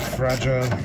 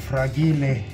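First: It is said in a plain English way. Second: It is said in a mock Italian way.

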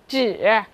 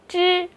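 First: The pitch dips low, then rises. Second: The pitch stays high and level. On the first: "三声" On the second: "一声"

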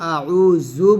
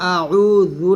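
First: The middle consonant is a buzzing 'z' sound. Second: The middle consonant is a soft 'dh' sound. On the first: The meaning changes to something else. The speaker calls it wrong. "জালের জায়গায় যদি আমি ঝা উচ্চারণ করে ফেলি" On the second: I seek refuge in God. The speaker calls it right. "জালের জায়গায়"

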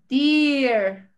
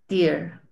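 First: The vowel is drawn out in a forced way. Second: The vowel glides lightly in a relaxed way. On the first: The speaker calls it wrong. "estaría muy forzado, Ivonne, porque sería como dear" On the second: The speaker calls it right. "la realidad es que la pronunciación es como más ie"

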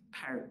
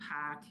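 First: The R after the vowel is pronounced. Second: The R after the vowel is dropped. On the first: This is the younger generation's speech. "a 20-year-old, you'd hear them saying things like dark, park" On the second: This is the older local speech. "traditional Boston would be pack and dack"

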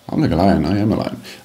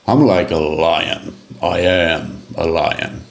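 First: It is said in a flat, dull way. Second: It is said with strong emotion and oomph.

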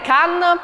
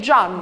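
First: The name starts with a hard k sound. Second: The name starts with a soft j sound. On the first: The speaker calls it wrong. "che non è Can" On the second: The speaker calls it right. "bensì è Gian"

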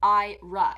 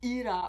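First: The name is pronounced the English way. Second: The name is pronounced a non-English way. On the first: The speaker calls it right. "the pronunciation of it is Ira in the English" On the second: The speaker calls it wrong. "it's pronounced Ira or something like that in some other country or language"

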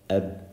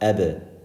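First: The final b stops with no audible release. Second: The final b is released with a small bounce. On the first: The speaker calls it wrong. "if we didn't do it, you wouldn't hear the letter" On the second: The speaker calls it right. "ebe has a little bounce"

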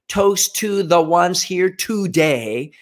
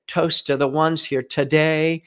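First: The words are said fully, each sound clear. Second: The words are reduced, with sounds run together. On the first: "Instead of saying" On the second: "they say, ... you can hear that word reduction"

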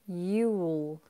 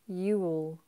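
First: It is said as one contracted syllable. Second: It is said as one contracted syllable.

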